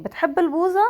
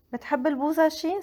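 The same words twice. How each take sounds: First: بتحب البوظة with a rise on البوظة; question tune. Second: بتحب البوظة شي, fast, rising on البوظة then شي; question with shi. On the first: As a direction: raise البوظة to make it a question. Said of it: "So it's the same thing". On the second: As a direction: tag شي on the end of the question. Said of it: "we can add she at the end". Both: Shown as a demonstration.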